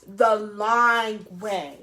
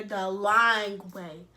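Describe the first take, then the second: First: "The lying way" slower, louder, drawn out; stress on lying. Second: "lying" stretched slow and heavy; stress on lying. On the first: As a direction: lean hard on "lying way". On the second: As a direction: drag out "lying way" slowly. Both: Real, not acted.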